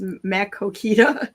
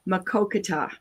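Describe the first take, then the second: First: The third vowel sounds like 'ee'. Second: The third vowel sounds like 'ah'. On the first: The speaker calls it wrong. "for people who see it and can't s- pronounce it the way that it should be pronounced" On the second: The speaker calls it right. "No, Makokata"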